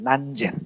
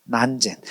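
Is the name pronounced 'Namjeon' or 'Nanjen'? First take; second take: Nanjen; Nanjen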